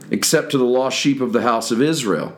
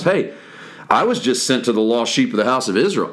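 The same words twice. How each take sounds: First: Said in the usual way. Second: Dry, doubting aside to the disciples; quick sarcastic quip; sarcastic question. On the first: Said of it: "pay attention to the conversation". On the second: Shown as a demonstration. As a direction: say it as if it ends in a question mark. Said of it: "you should put a question mark on that".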